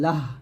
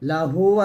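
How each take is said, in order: First: The word ends on a consonant, vowel dropped. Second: The word ends with a final vowel sound. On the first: The reader stops on this word. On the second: This is the full form before any stop.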